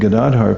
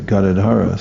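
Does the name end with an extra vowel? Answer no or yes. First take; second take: no; yes. First: The name ends on the final consonant. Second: The name ends with an added vowel sound. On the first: This is the correct form of the name. The speaker calls it right. "instead of saying Gadadhar" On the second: The name is stretched to fit the music. The speaker calls it wrong. "people say Gadadhara"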